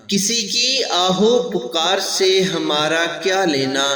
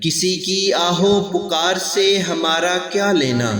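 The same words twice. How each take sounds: The two takes are said the same way.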